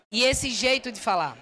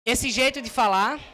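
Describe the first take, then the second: First: Firmer, steadier e esse jeito de falar; confident. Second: Said in the usual way. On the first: Shown as a demonstration. Coach shows the confident version, firm and steady. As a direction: say it planted and sure of yourself. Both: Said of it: "Vê, vê como é sutil".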